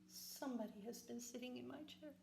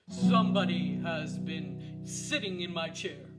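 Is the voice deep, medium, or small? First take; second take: small; deep. First: The voice is small, little and high. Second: The voice is big, deep and gruff. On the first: "in his little wee voice" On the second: "in his big gruff voice"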